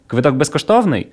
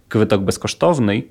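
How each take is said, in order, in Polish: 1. Ma intonację pytania. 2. Ma intonację zwykłego stwierdzenia. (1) "czy bilet jest bezpłatny? ... Grunt to jest intonacja" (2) "bilet jest bezpłatny"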